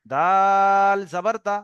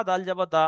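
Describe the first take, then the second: First: "দাল" stretched very long on a level note; long elongation. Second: "দাল" said short, without elongation; wrong short vowel. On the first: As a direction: hold the vowel of "দাল" steadily before finishing. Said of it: "টানের খেয়াল রাখতে হবে". ("দাল"-এ লম্বা টান দিয়ে পড়া) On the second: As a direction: keep "দাল" brief, no drawn-out vowel. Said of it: "অক্ষরের টানের খেয়াল রাখেনি". ("দাল" টান ছাড়া, ছোট করে পড়া) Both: Shown as a demonstration.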